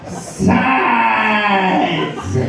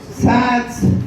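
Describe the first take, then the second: First: The word is said louder and stretched out longer. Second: The word is said at normal loudness and length.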